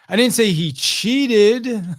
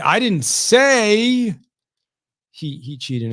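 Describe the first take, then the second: First: The word "cheated" carries the main stress. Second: The word "say" carries the main stress. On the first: What he did was not quite cheating. "he just wasn't technically cheating, just fudging the score a little bit" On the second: It was implied, not said. "I might have implied it, but I didn't say it"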